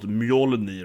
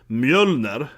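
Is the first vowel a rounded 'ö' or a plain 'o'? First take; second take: plain o; rounded ö. First: The first vowel is a plain o sound. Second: The first vowel is a rounded ö sound. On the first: The speaker calls it wrong. "and not Mjolnir" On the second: The speaker calls it right. "this thing is called Mjölner"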